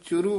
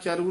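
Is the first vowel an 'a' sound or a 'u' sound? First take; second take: u sound; a sound. First: The first vowel is a short u sound. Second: The first vowel is a short a sound. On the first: The speaker calls it right. "ਇਸ ਨੂੰ ਚੁਰੂ ਬੋਲਣਾ" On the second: The speaker calls it wrong. "ਚਰੂ ਨਹੀਂ ਬੋਲਣਾ"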